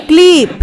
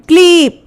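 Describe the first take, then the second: No difference in how they are said.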